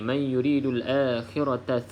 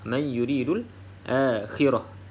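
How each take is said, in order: First: The last word ends with a t sound. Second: The last word ends with an h sound. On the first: The reading continues without stopping. "Kalau sambung terus je" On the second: The reading stops on this word. "kalau kita berhenti pada ta yang bulat ni, bunyi seperti huruf ha"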